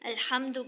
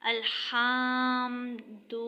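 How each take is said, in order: First: The short vowels are kept short. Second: The short vowels are stretched out long. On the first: The speaker calls it right. "अल्हम्दु की जगह" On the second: The speaker calls it wrong. "पढ़ते वक्त अगर हम ज़बर को खींचेंगे तो जब वो अलिफ में चेंज हो जाएगा"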